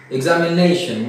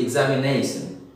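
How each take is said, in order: First: Said in the usual way. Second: "examination" ending in -sun, not -shun. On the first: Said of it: "Instead of sh, they say s". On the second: Shown as a demonstration. Teacher mimics Odisha speakers, "examination" with s for sh. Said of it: "they say s".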